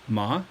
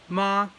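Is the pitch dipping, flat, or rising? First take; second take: rising; flat. First: The pitch rises like a question. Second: The pitch stays high and level. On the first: It means numb. "like you're asking a question" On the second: It means mother. "high flat tone"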